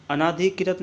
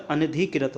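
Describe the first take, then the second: First: अनाधिकृत with a long naa; wrong pronunciation. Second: अनधिकृत with a short na; correct pronunciation. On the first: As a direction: say अनाधिकृत stretching the second vowel. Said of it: "अनाधिकृत नहीं होता". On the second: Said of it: "अनधिकृत होता है". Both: Shown as a demonstration.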